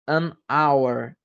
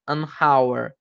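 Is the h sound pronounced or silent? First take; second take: silent; pronounced. First: The h sound is silent. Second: The h sound is pronounced. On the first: The speaker calls it right. "Então não tem o som de H" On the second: The speaker calls it wrong. "mas nenhuma não é"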